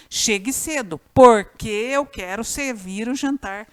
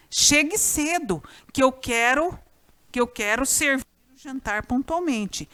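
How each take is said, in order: First: "porque" punched and drawn out; stress on PORQUE. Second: Said in the usual way. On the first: Shown as a demonstration. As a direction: hit "porque" to mark the swapped word. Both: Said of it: "Você pode pôr o pois no lugar ou porquê".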